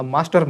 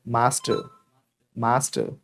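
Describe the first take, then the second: First: मास्टर ending in a clear r; wrong sounded r. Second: मास्टर as "maastuh", low, no final r; silent r. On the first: Teacher listing what not to say, sounded r. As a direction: say मास्टर as "maastar", r pronounced. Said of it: "मास्टर मत बोलना". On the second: Teacher drilling the class, silent final r. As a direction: end मास्टर on a short neutral vowel. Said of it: "आर को कर देंगे गायब". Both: Shown as a demonstration.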